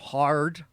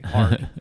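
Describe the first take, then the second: First: The R sound is exaggerated and hit very hard. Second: The R sound is pronounced at normal strength. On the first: A British speaker imitates an American accent. "you would hear them go they go hard" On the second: An American speaker says it. "and we would say hard"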